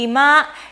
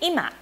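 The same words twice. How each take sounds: First: It has the standard pitch accent for 'living room'. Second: It has the standard pitch accent for 'now'. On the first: The word means living room. "ima means living room in standard Japanese" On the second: The word means now. "we say ima for now"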